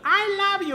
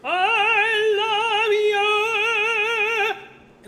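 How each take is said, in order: First: It is said in a plain speaking voice. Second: It is said in a ringing operatic voice.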